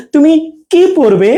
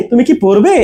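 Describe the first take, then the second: First: "তুমি", gap, long "কি পরবে"; weight on "কি", asking what; space before long কি. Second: Quick "তুমি কি", rise on "পরবে"; short "কি" with no gap; fast attached কি. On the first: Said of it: "একটু স্পেস দিয়ে কিটা". ("তুমি"-র পরে ফাঁক, "কি" দীর্ঘ) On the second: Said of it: "উচ্চারণটা ফাস্ট হবে". ("তুমি কি" দ্রুত জুড়ে, "পরবে"-তে প্রশ্ন) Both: Shown as a demonstration.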